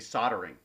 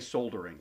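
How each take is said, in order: First: The word is said without an L sound. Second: The word is said with an L sound. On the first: This is how North Americans say it. "in North America, for some reason, they say soldering" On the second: This is how the speaker grew up saying it. "you actually say the L that's there"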